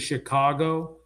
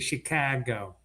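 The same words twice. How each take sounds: First: Chicago is said in a general American accent. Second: Chicago is said in an Italian-American accent. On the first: "like most people say Chicago" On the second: "Italian Americans say Chicago"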